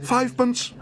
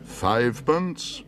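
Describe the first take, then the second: First: Very high excited cry. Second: Slow, disbelieving question; incredulous repeat. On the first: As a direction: blurt it out eagerly. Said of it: "cried Paddington excitedly". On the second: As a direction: repeat it as if you misheard. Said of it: "repeated the auctioneer". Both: Acted.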